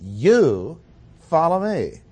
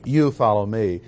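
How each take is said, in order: First: "You" punched louder, "follow me" pitched up; stress on you. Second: "You" said louder at the start; stress on you. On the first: Preacher demonstrating the emphatic "You" in Jesus' command. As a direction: hit "You" hard and lift "follow". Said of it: "The next word also is emphatic". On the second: Preacher reading the verse, leaning on "You". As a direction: lean on "You" before "follow me". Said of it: "The words "you" are in juxtaposition". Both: Shown as a demonstration.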